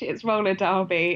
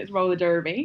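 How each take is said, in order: First: It is said with a British accent. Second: It is said with an American accent.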